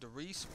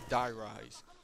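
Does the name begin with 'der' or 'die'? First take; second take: der; die. First: The name is said as one word, 'deh-reese'. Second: The name is said as two words, 'die rise'. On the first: The speaker calls it wrong. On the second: The speaker calls it right. "but it's Die Rise"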